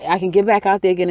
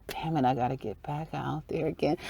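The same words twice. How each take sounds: First: Said in the usual way. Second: Much softer, grudging complaint; quiet grumble. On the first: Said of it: "Like, you know". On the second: Retold or imitated. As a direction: drop the volume and grumble it. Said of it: "It's like".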